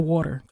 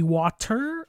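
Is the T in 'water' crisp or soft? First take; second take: soft; crisp. First: It is said with a soft, accented T. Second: It is said with a clearly articulated T.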